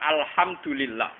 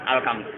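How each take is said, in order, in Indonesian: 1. Bunyi kedua adalah h berdesir. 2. Bunyi kedua adalah k keras. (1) "orang Arab misalnya baca alhamdulillah" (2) "wong Jawa ... muni alkam"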